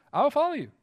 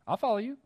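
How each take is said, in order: First: Much higher and a bit louder, stress on follow; emphatic promise. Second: Earnest promise. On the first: Preacher repeating his vow to God, now fervent and rising. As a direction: lift it up with conviction. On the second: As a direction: say it simply, settling into it. Resolving to follow God. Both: Retold or imitated.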